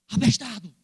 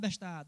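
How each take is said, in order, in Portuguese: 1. A palavra é dita com um tom duro e agressivo. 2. A palavra é dita com um tom suave e amigável.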